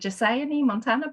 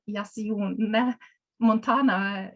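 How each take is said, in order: First: The name is said in an English way. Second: The name is said in a non-English way. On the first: "perhaps in English" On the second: "I pronounce it"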